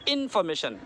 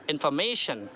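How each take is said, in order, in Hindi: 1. Stress पहले अक्षर पर है। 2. स्ट्रेस तीसरे अक्षर पर है। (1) "पहले में स्ट्रेस करेंगे तो कैसा होगा, इन्फॉर्मेशन गलत होगा" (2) "मैं को खींचेंगे"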